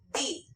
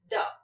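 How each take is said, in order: First: The vowel is long and full, like 'thee'. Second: The vowel is short and weak, like 'thuh'. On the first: This is the form used before a vowel sound. "if the noun is starting with a vowel, then we will be pronouncing it as the" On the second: This is the form used before a consonant sound. "If the noun is a consonant, then we can pronounce it as the"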